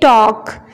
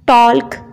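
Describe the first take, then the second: First: No L sound is heard before the K. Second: An L sound is heard before the K. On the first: The speaker calls it right. "एल यहाँ पे silent होगा" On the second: The speaker calls it wrong. "ये गलत pronunciation है"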